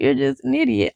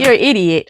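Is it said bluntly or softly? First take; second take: softly; bluntly. First: It is said softly in a low, calm tone. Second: It is said bluntly and harshly.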